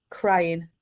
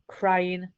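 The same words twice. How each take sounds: The two takes are said the same way.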